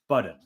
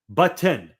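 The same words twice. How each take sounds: First: The middle consonant sounds like a D. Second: The middle consonant sounds like a T. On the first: The speaker calls it wrong. "I am saying button as if it has a D in it" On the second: The speaker calls it right.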